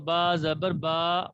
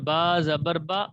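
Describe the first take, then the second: First: The final vowel is drawn out long. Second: The final vowel is kept short. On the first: The speaker calls it wrong. "वो तो बा के बाद अलिफ हो जाएगा, जो कि गलत है।" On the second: The speaker calls it right. "इनको बिल्कुल भी लंबा नहीं करना।"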